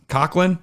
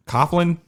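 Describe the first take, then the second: First: "Coughlin" with a K sound in the middle; unsure pronunciation. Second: "Coughlin" with an F sound in the middle; unsure pronunciation. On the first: Host trying out May's surname, "Coughlin" said with a K. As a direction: say "Coughlin" as COCK-lin, questioning. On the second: Host trying out May's surname, "Coughlin" said with an F. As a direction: say "Coughlin" as COFF-lin, tentatively. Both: Shown as a demonstration. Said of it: "I don't know how to pronounce it".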